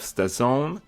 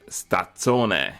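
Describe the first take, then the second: First: The surname is pronounced the plain English way. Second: The surname is pronounced the Italian way.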